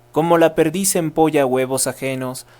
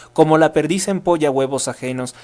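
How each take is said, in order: Both takes have the same delivery.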